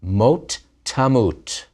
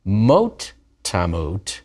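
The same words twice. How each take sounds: First: Slow "mot tamut" with weight; emphatic phrase. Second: "Mot" leaned on, slow "Mot tamut"; stress on MOT. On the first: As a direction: stress "mot tamut" slowly. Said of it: "with the infinitive absolute". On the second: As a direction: hit "Mot" then "tamut", slowly. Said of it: "with the infinitive absolute before the imperfect". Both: Shown as a demonstration.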